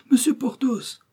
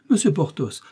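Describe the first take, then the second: First: Much higher, piercing desperate cry of his name. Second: A first urgent call, a little higher. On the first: The procureuse crying after leaving Porthos, high desperate cry. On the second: The procureuse calling after departing Porthos, urgent call. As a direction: call his name to stop him. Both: Acted. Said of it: "s'écria la procureuse".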